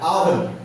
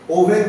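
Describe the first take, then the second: First: The first vowel is an open a sound. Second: The first vowel is a rounded o sound. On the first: The speaker calls it right. "ব্রিটিশদের মতো উচ্চারণ করতে হবে" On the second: The speaker calls it wrong. "ওভেন বললে হবে না"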